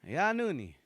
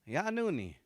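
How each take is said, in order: The two takes are said the same way.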